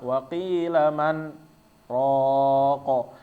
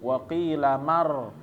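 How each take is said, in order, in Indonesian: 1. Ada jeda singkat di antara man dan raq. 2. Bunyi n menyatu dengan r tanpa berhenti. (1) "berhenti dulu, ro tanpa narik napas" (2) "dia nyambung"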